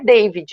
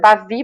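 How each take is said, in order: First: The name is said with a final d sound. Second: The name is said with no final d sound. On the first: This is the English way of saying the name. The speaker calls it wrong. "a pronúncia não é David" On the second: This is the French way of saying the name. The speaker calls it right. "é Davi mesmo, porque a gente está falando do francês"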